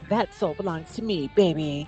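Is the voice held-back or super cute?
super cute. A sweet, super cute character voice. The speaker calls it right. "I've decided that she's just super cute"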